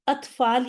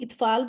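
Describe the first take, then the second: First: The word begins with an 'a' vowel. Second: The word begins with an 'i' vowel. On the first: The speaker calls it right. "अत्फ़ाल ही बोलेंगे" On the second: The speaker calls it wrong. "अक्सर लोग इत्फ़ाल बोल रहे होते हैं, तो नहीं"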